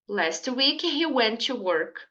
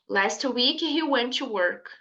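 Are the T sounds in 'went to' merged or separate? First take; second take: merged; merged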